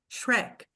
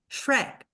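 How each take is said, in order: First: The word is said with one syllable. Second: The word is said with one syllable.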